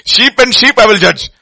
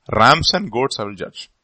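First: Loud, high declaration; preaching. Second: Said in the usual way. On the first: Acted. Pastor preaching God's judgment to the church, booming. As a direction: thunder it out from the pulpit.

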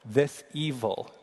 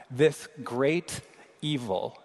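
First: This pressed hard, evil slow with a falling tune; slow, deliberate, leaning on the word this; corrected reading: this evil; stress on this. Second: Slow scripture reading, stress on great; this great, pause, evil; reading the Hebrew. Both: Shown as a demonstration. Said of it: "it reads this way".

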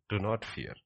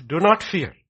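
First: Said in the usual way. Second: High, loud preacher's command; forceful proclamation. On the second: Real, not acted. Preacher proclaims it, then repeats softer.

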